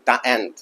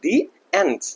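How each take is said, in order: First: The word 'the' is pronounced 'thuh'. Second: The word 'the' is pronounced 'thee'. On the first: The speaker calls it wrong. "not like the ant" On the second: The speaker calls it right. "we have to pronounce like the ants"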